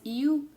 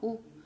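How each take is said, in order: First: A y glide comes before the oo vowel. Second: A plain rounded oo vowel with no glide. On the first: "U en inglés es you" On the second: "U en español es así como lo estoy diciendo"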